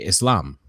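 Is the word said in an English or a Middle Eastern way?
Middle Eastern. It is said with a Middle Eastern pronunciation. "if you're from the Middle East, you probably say"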